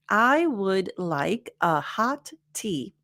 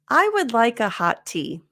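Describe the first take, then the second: First: Each word is said separately, like a robot. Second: The words are linked together smoothly. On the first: The speaker calls it wrong. "if I were Siri or some other robot, it would sound like this" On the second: The speaker calls it right. "But since we're not robots"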